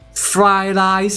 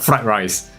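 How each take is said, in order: First: The r sounds turn into l sounds. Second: The r sounds are pronounced as clear r sounds. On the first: "it's because of their pronunciation" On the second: "actually they are talking about fried rice"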